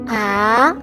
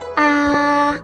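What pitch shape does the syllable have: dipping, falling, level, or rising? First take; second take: rising; level. First: The pitch starts mid-high and rises. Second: The pitch stays high and level. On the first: "starts in the mid-high point in your vocal range and then goes up in pitch" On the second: "The first tone is high and at the same level"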